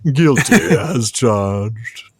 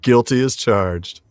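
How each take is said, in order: First: It is said in a put-on cartoon character voice. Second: It is said in the speaker's ordinary voice.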